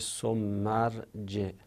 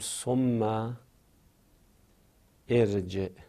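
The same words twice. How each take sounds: First: Thumma links straight on and the glottal stop drops. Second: A stop follows thumma and the glottal stop is heard. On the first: "این ثم رو بخوایم بچسبونیم به ما بعد، این همزه میفته میشه" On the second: "یه وقت از ما وقف میکنیم میگیم"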